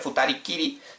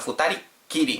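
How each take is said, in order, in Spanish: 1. La k antes de kiri es corta y simple. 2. La k antes de kiri se sostiene y es doble. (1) "no se dice Futari Kiri" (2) "sino Futari Kiri, metiendo un tsu pequeño"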